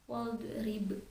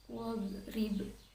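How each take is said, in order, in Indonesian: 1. Konsonan tengah dilepaskan dengan pantulan. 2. Konsonan tengah digeser halus tanpa pantulan. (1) "Tidak boleh dipantulkan seperti" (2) "do sukun itu hanya menggeser lidah saja"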